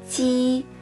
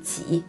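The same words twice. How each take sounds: First: The tone stays high and level. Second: The tone dips low and then rises. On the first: It means almost. "il peut aussi prononcer comme premier ton" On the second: It means how many. "si on prononce au troisième ton"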